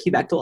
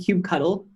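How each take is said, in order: First: The word ends sounding like 'cuttle'. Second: The word ends sounding like 'cuddle'. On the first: This started as a joke and is now the speaker's usual pronunciation. "now I just genuinely say cubectal" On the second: This was the speaker's original pronunciation. "I started out saying cube cuddle"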